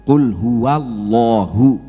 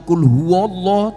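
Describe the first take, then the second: First: The phrase ends with a final 'u' after 'Allah'. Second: The phrase ends on 'Allah' with no final vowel. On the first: The speaker calls it right. "tapi kul huwa. Kul huwallahu ya" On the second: The speaker calls it wrong. "bukan lagi kul huwallah"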